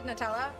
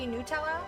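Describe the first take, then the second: First: The first syllable sounds like 'nut'. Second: The first syllable sounds like 'newt'. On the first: "It's nut and then Ella" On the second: "Apparently it's supposed to be Nutella. That just sounds wrong to me"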